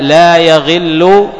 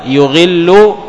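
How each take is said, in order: First: لا يغل with a on the ya, "la yaghillu"; fatha on the ya. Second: يغل with u on the first letter, "yughillu"; damma on the ya. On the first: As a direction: open يغل on "ya". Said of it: "وأما بفتح الياء". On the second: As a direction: open يغل on "yu". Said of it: "بضم الياء". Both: Shown as a demonstration.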